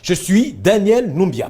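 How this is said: The voice falls to a full stop at the end. The introduction is finished and the name registers. The speaker calls it right. "Point. Tu chutes"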